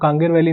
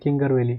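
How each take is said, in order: First: The first syllable has a long 'aa' vowel. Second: The first syllable has a short 'i' vowel. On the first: The speaker calls it right. "Pronunciation exact बोलेंगे तो" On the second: The speaker calls it wrong. "किंगर वैली गलत है"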